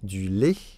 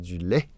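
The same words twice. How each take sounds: First: The vowel is said the way people in France say it. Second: The vowel is said the way the dictionary gives it. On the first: The speaker calls it wrong. "en France, euh, on dit du lait" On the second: The speaker calls it right. "alors que c'est du lait"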